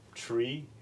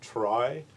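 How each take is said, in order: First: The word is said like 'tree'. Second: The word is not said like 'tree'. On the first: It follows the word retrieval. The speaker calls it right. "you're supposed to pronounce tree" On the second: It keeps the word apart from ordinary trees. The speaker calls it wrong. "I will pronounce it binary trie"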